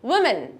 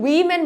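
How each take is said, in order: First: The first syllable 'wi' is said lightly. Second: The first syllable 'wi' is said heavily. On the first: The speaker calls it right. "হালকা করে উইটা বলবো" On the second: The speaker calls it wrong. "অনেকে এটাকে women বলে ফেলে না"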